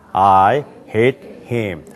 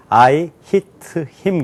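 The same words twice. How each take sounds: First: It is spoken with an American accent. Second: It is spoken with a Korean accent. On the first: "근데 미국 사람들은 어떻게 한다고요?" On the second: "한국 사람들은 영어로 그를 때리다 그럼 I hit him 그래요"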